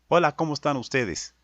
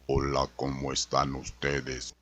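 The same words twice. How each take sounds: First: The voice is neither high nor deep. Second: The voice is deep and very thick.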